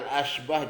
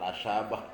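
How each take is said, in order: First: The word is said with two syllables, 'ash-bah'. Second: An extra vowel makes three syllables, 'a-sya-bah'. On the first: The speaker calls it right. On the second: The speaker calls it wrong. "jangan Al-Asyabah"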